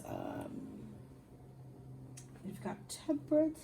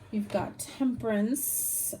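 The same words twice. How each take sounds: First: Yawning. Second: Said in the usual way. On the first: Real, not acted. Tired reader naming a card to viewers, yawning. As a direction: say it as a yawn takes over. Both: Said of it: "I apologize for yawning".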